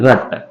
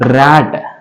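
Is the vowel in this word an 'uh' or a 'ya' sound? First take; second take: uh; ya. First: The vowel is a short 'uh' sound. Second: The vowel is a 'ya'-like sound. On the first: The speaker calls it wrong. "ఈ రట్ అని మనం pronounce చేయం" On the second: The speaker calls it right. "ర్యాట్ అని pronounce చేస్తున్నాం"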